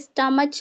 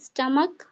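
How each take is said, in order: First: The word ends with a 'ch' sound. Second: The word ends with a 'k' sound. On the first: The speaker calls it wrong. "स्टमच नहीं पढ़ते हैं" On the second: The speaker calls it right.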